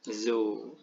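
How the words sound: The first consonant is a breathy h sound. The speaker calls it right.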